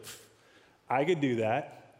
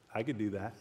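First: It is said louder. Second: It is said quietly.

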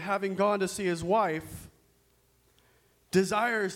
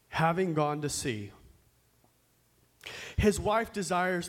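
First: The pause comes right after wife. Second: The pause comes right after sea. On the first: The husband went to visit his wife. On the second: The husband has gone to sea.

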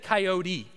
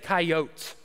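First: It ends with an ee sound. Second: It ends without an ee sound.

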